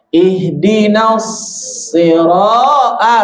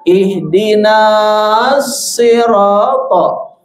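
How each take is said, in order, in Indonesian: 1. Vokal na langsung masuk ke bunyi s. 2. Vokal na dibaca panjang sebelum bunyi s. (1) "na-nya langsung masuk ke shad" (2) "jangan dibaca"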